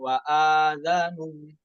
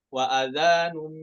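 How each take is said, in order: First: The vowel after the hamza is lengthened. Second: The vowel after the hamza is kept short. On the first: The speaker calls it wrong. "bukan wa adzanum" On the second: The speaker calls it right. "tapi wa adzanum minallah ... bukan mad badal"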